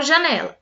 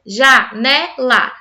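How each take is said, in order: First: Said in the usual way. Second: "janela" slowly broken into three separate beats; split into syllables. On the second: Shown as a demonstration. Teacher showing word pieces, "janela" syllable by syllable. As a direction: say "janela" as ja, ne, la with clear gaps. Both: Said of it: "tem três pedaços".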